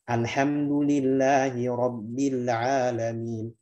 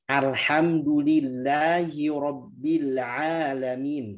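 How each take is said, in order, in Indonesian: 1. Vokalnya dibuka dengan tingkat yang sedang dan merata. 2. Vokalnya dipanjangkan dengan gerakan mulut yang berlebihan. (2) "Itu berlebihan"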